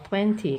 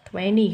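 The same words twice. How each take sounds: First: It is said with a British accent. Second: It is said with an American accent. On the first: "kalau versi Britishnya" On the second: "kalau uh, versi Amerikanya ya"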